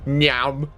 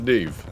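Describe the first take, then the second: First: The name is pronounced like 'Nyam'. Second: The name is pronounced like 'Neve'. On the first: The speaker calls it wrong. "then she'd be called Nyam" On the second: The speaker calls it right. "it's pronounced Neve"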